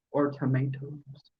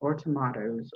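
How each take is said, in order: First: Tomatoes said "tuh-MAY-toes", every syllable; "tomatoes" in full, MAY in the middle; pronunciation tuh-MAY-toes. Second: Tomatoes said "tuh-MAH-toes"; "tomatoes" in full, MAH in the middle; pronunciation tuh-MAH-toes. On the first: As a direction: say tomatoes with a long AY. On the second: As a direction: say tomatoes with an open AH. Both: Shown as a demonstration. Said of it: "we say taters and maters".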